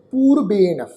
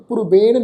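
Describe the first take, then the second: First: ਪੂਰਬੇਣ with a long oo, poorben; ਪੂਰਬੇਣ held on the long oo of dulainkar; correct pronunciation. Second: ਪੂਰਬੇਣ with a short u, purben; the mistaken short-vowel ਪੂਰਬੇਣ; wrong pronunciation. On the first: Teacher giving the sangat the right reading, ਪੂਰਬੇਣ with long oo. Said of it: "ਉਚਾਰਨ ਕਰਾਂਗੇ ਜੀ ਪੂਰਬੇਣ". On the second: Teacher warning the sangat, ਪੂਰਬੇਣ with short u. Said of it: "ਨਹੀਂ ਉਚਾਰਨ ਕਰਨਾ". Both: Shown as a demonstration.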